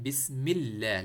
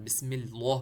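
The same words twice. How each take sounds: First: The l sound is light and thin. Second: The l sound is heavy and thick. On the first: The speaker calls it right. "लाम को तरक़ीक़ पढ़ना है, यानी पतला पढ़ना है" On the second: The speaker calls it wrong. "पढ़ते हैं अक्सर लोग, जो कि गलत है"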